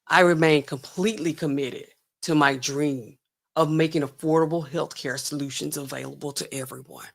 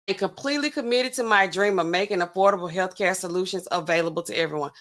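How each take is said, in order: First: It is said in her put-on TED Talk voice. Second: It is said in the speaker's own voice.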